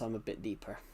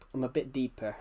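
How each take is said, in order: First: The voice is pitched deeper and lower. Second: The voice is pitched lighter and higher. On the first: This is the voice used when talking to people. "if I was to actually talk to you like this" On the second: This is the voice used for streaming. "when I'm streaming, guys, I make my voice sound much, much um, lighter"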